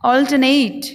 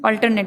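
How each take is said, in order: First: ऑल्टरनेट as "awl-tuh-NAYT"; teacher's joined-up "awl-tuh-NAYT"; correct pronunciation. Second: अल्टरनेट as "al-tar-net"; the everyday "al-tar-net"; common pronunciation. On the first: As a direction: say ऑल्टरनेट with silent r and long NAYT. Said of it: "इसका उच्चारण होगा". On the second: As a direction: say अल्टरनेट with sounded r and short "net". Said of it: "बोलते हैं". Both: Shown as a demonstration.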